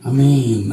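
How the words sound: The pitch falls at the end.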